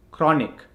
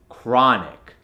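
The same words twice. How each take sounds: First: Chronic with a rounded "o"; Indian accent. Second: Chronic slowed, with an open "ah"; American accent. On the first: Coach gives the word to convert, Indian accent. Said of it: "from the Indian accent". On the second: Coach gives the converted word, American accent. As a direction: say "chronic" American, as "krah-nic". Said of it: "to the American accent". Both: Shown as a demonstration.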